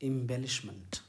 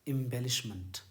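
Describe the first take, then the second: No difference in how they are said.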